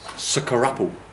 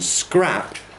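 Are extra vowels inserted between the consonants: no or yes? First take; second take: yes; no. First: Extra vowels break up the consonant cluster. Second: The consonant cluster is said without added vowels. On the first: "break up that cluster" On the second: "rather than saying scrap"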